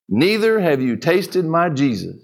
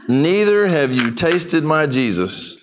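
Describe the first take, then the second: First: Put-on a calm old preacher's final word. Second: Slow and weighty, each word placed; slow emphatic restatement of the punchline; slow, deliberate repeat. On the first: A narrator's reading. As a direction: say it calmly, letting it land. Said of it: "and said calmly". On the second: Shown as a demonstration. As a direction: repeat it slowly so it sinks in.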